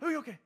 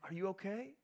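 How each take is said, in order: First: It is said in a frantic, panicked way. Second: It is said in a calm, steady way. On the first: The adult is alarmed by the injury. The speaker calls it wrong. "saying that just in a frantic sort of way" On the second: The adult sees the child is fine. The speaker calls it right. "handles it with stability, saying, ... But is not frantic"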